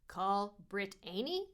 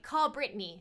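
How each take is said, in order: First: The name is split as Brit-Aney. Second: The name is said the usual way. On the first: The car's voice misreads the name. The speaker calls it wrong. "it's never the way the names are pronounced" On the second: The person says the name. The speaker calls it right. "So I'll be like"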